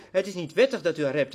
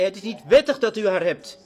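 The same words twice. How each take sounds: First: Said in the usual way. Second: Firm, louder proclamation of wettig; bold rebuke. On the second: Retold or imitated. John the Baptist rebuking the king, firm and louder. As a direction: declare it straight to the king's face. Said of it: "Hij zei".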